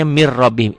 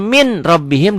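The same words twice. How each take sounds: First: "mir rabbihim", the n dropped into a doubled r; as read. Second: "min rabbihim" with a clear n, the way it is written. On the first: Teacher shows how the phrase is actually read. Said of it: "dibacanya mir rabbihim". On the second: Teacher shows the written form before the true reading. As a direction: read "min rabbihim" with the n still sounded. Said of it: "Tulisannya min rabbihim". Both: Shown as a demonstration.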